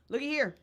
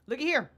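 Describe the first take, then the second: No difference in how they are said.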